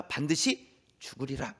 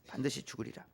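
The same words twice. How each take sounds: First: 반드시 said low and heavy, slow; stern warning. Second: 반드시 죽으리라 breathed as an unvoiced whisper; whispered warning. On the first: Pastor quoting God's stern warning to Adam, slow and heavy. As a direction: lean hard on 반드시, slowly. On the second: Pastor whispering God's warning to the congregation. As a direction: whisper 반드시 like a secret threat. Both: Shown as a demonstration. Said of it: "이렇게 말씀하세요".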